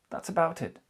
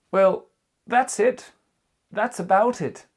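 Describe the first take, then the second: First: Said in the usual way. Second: Higher and louder, wrapping up; loud modelled closing. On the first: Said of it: "teacher repeats ending phrase". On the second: Shown as a demonstration. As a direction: announce the end with a flourish. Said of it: "teacher models ending phrase". (conclusion jouée, plus forte et plus aiguë)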